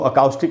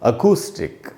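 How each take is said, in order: First: The second vowel is an 'ow' sound. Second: The second vowel is a long 'oo' sound. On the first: The speaker calls it wrong. "इसको अकाउस्टिक नहीं पढ़ना है" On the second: The speaker calls it right. "इसको हमको पढ़ना चाहिए अकूस्टिक"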